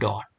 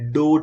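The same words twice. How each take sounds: First: The vowel is a short open 'o' sound. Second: The vowel is a long gliding 'oh' sound. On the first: The speaker calls it right. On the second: The speaker calls it wrong.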